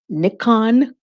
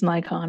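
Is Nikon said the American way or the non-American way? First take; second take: non-American; American. First: Nikon is said the way it is outside America. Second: Nikon is said the way Americans say it.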